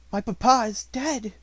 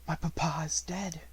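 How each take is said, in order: First: Louder, higher grieving cry. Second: Dazed whisper, not her own voice; stunned, whispered grief; hollow whisper. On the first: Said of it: "saying over and over again". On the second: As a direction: murmur it to herself in shock. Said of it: "in a voice which did not seem her own". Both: A narrator's reading.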